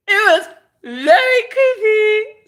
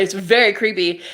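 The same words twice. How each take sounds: First: Loud, very high, drawn-out squeal. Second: Said in the usual way. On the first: Real, not acted. Recounting the creepy woman, squealing high and loud. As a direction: squeal it slowly, far above your usual pitch. Repeats the remark with rising intensity.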